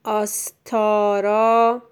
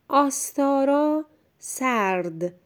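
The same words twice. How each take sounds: First: آستارا slowly split into syllables, loud; slow dictation. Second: آستارا read whole, higher pitch; clear first reading. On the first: Teacher dictates for a pupil writing, slow and loud. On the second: Teacher introduces the second sentence to a pupil, clear and higher. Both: Shown as a demonstration.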